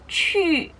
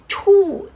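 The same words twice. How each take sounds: First: The vowel is a fronted, rounded ü sound. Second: The vowel is a plain back u sound. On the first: The speaker calls it right. "tapi dibacanya cu" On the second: The speaker calls it wrong. "dibacanya bukan cu"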